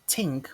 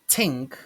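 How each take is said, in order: Both takes have the same delivery.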